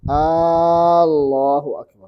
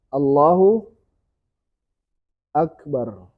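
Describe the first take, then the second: First: The opening A is drawn out long. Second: The opening A is short. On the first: It turns into a question: is God the Greatest? The speaker calls it wrong. "tak boleh panjang A-nya. ... tak boleh" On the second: God is the Greatest. The speaker calls it right. "Harus benar"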